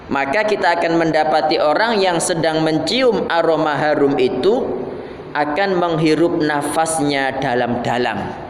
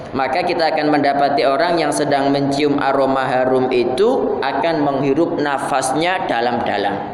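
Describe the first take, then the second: No difference in how they are said.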